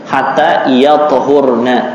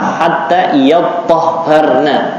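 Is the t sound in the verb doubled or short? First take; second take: short; doubled. First: The t is short and has no vowel. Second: The t is doubled and followed by a. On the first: "dengan ta'nya sukun" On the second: "dengan tasydid dan ta'nya fathah"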